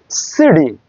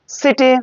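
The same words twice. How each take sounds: First: সিডি with a light D tap; flapped T. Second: Said in the usual way. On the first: Shown as a demonstration. Teacher showing the American flap in সিডি. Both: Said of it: "become D".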